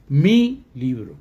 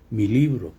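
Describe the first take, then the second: First: Heavy, detached stress on "mi". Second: Said in the usual way. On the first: Shown as a demonstration. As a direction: hit "mi" hard as a separate word, then drop onto "libro". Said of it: "No digo mi libro". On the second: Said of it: "se lee pegado a la, al sustantivo".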